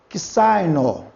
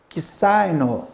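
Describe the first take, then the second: Both takes have the same delivery.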